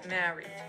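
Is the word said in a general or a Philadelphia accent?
Philadelphia. It is said in a Philadelphia accent.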